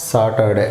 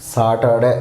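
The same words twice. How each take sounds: First: సాటర్డే said as సాటడే, with the R dropped; correct pronunciation. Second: సాటర్డే said with a full R, as written; wrong pronunciation. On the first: Teacher giving the right way to say సాటర్డే. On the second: Teacher showing the wrong way to say సాటర్డే. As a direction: pronounce సాటర్డే with the R sounded. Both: Shown as a demonstration. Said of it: "not సాటర్డే".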